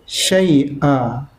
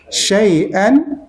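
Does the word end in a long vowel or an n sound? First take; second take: long vowel; n sound. First: The word ends with a long a vowel. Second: The word ends with an -an sound. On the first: The reader stops at this word. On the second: The reading continues past this word.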